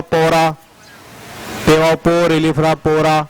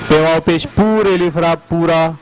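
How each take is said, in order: First: पोरा with an o sound instead of oo; wrong pora. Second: पूरा with a long rounded oo; correct poora. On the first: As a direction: say पोरा as the mistaken o. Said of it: "ना हो तो क्या होगा?". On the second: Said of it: "अगर पे वाव पेश ना हो". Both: Shown as a demonstration.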